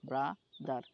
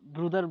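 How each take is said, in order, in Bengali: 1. প্রথম সিলেবলটি 'bra' হিসেবে উচ্চারিত হয়। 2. প্রথম সিলেবলটি 'broo' হিসেবে উচ্চারিত হয়।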